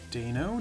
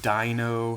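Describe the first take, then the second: First: The first vowel sounds like 'ay'. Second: The first vowel sounds like 'eye'. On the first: "I pronounce the Hydreigon evolution line the E I with a A sound" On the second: "A lot of people pronounce it with the I sound, so like Dino"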